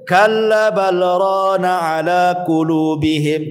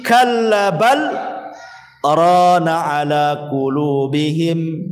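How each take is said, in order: First: The words run on without a pause after bal. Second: There is a pause after the word bal. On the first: "tidak berhenti langsung" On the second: "Ada yang berhenti"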